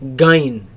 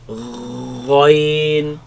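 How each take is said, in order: First: It begins with a hard g sound. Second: It begins with a guttural gh sound. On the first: The speaker calls it wrong. "Do not pronounce it as gain" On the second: The speaker calls it right. "There is no such sound in Arabic"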